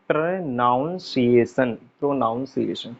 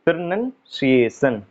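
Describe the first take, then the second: First: प्रोनाउंसिएशन said as "pronaunsiation" with an "aun" sound; प्रोनाउंसिएशन with the "naun" vowel, as people wrongly say it; wrong pronunciation demo. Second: प्रोनाउंसिएशन said slowly as "pronunciation" with a short "nun"; प्रोनाउंसिएशन with the schwa "nən" in place of "naun"; correct pronunciation. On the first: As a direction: show the common wrong प्रोनाउंसिएशन, slowly. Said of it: "कुछ लोग इसको क्या कहते हैं". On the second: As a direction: model the right प्रोनाउंसिएशन, unhurried. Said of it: "प्रोनाउंसिएशन का उच्चारण होता है". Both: Shown as a demonstration.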